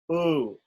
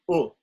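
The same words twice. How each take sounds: First: The vowel is long, as in 'two'. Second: The vowel is short, as in 'push'. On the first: "The long U is pronounced like the double O in two" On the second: "the short U is pronounced U"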